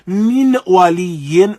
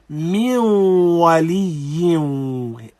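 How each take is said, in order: First: The n sound is pronounced clearly before w. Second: The n sound merges into the following w. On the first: The speaker calls it wrong. "we do not say" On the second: The speaker calls it right. "rather we have idgham"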